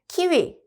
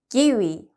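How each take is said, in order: First: The first consonant is a strong aspirated k. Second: The first consonant is a soft unaspirated k. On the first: The speaker calls it wrong. "키위가 아니라" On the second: The speaker calls it right. "기위 이렇게 읽히겠죠"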